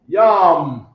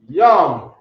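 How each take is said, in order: Both takes have the same delivery.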